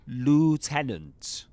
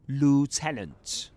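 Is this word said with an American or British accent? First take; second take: American; American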